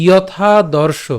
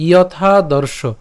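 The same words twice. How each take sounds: First: যথাদর্শ slowly, syllable by syllable; careful pronunciation. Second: Said in the usual way. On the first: Shown as a demonstration. Teacher saying যথাদর্শ slowly to students. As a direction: draw out যথাদর্শ clearly. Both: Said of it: "এরপর".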